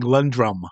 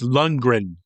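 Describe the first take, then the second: First: The name is said with an M sound. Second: The name is said with an N sound. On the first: The speaker calls it wrong. "You're saying Lundrum" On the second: The speaker calls it right. "It's Lundgren"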